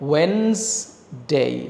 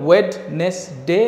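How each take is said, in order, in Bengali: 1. মাঝের অংশটি 'wenz'-এ কমে যায়। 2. মাঝের 'd' আর 'nes' পুরোপুরি উচ্চারণ করা হয়। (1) "এটা হবে ওয়েন্সডে" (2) "কখনোই ওয়েডনেস ডে না"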